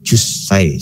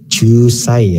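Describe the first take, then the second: First: The vowel in 'ju' is kept short. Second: The vowel in 'ju' is drawn out long. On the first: The speaker calls it right. "cuman jusai seperti itu" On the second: The speaker calls it wrong. "jusnya panjang"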